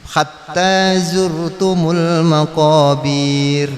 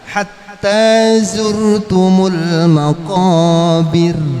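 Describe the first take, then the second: First: The final syllable is drawn out long. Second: The final syllable is kept short. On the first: The speaker calls it wrong. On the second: The speaker calls it right.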